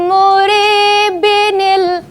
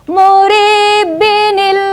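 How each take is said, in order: The two takes are said the same way.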